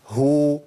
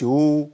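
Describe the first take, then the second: First: "هو" with a distinct h before long oo; correct ha damma. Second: "هو" with the h lost, just a long oo; wrong damma. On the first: Teacher modelling ha with damma, "هو" with h clearly heard. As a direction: sound the h of "هو" firmly, then oo. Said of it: "ما اقولش هو". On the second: Teacher showing the mistake, "هو" as bare oo without h. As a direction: swallow the h of "هو", leaving oo. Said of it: "ما اقولش". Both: Shown as a demonstration.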